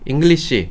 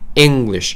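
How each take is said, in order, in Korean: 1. 첫 음절에는 강한 강세가 없어요. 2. 첫 음절에 강한 강세가 있어요. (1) "그거 그냥 English, English, English 이렇게 하면 안 되고요" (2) "앞에 eng에다 굉장히 강세를 빡 주셔야 돼요"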